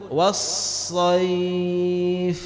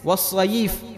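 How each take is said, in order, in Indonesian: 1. Kata ini berakhir lembut pada bunyi f saja, tanpa vokal. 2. Sebuah vokal ditambahkan setelah f terakhir. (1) "tapi bacanya lembut was-sayf" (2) "dikasih baris was-sayf"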